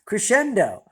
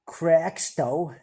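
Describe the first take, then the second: First: It is said in full as 'crescendo'. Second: It is said as a short 'crexto'. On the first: The speaker calls it right. "it's actually the word crescendo" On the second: The speaker calls it wrong. "as I thought it was pronounced"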